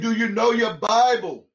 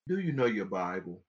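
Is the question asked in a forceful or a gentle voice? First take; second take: forceful; gentle. First: The question is asked in a forceful voice. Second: The question is asked in a gentle voice.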